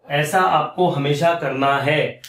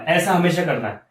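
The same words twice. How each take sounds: First: ऐसा आपको हमेशा करना है drawn out slowly, word by word; slow emphatic repeat. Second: Said in the usual way. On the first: Shown as a demonstration. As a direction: stretch हमेशा and करना to drive the rule home. Teacher repeats the rule for emphasis. (धीरे-धीरे, ज़ोर देकर समझाते हुए)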